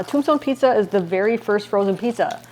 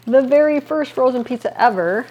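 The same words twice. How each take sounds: First: Said in the usual way. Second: Very and ever pushed higher and louder; emphatic repeat. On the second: Real, not acted. Marveling to viewers about her hometown, emphatic. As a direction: lean into very and ever, amazed.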